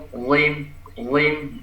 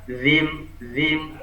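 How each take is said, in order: First: "Zim" with a thick emphatic Arabic Z; heavy zha. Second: "zim" with a light, thin Arabic dh; thin dzal. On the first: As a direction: lift the back of the tongue for a heavy "zim". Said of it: "dia sifatnya isti'la". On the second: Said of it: "Nah, tipis". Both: Shown as a demonstration.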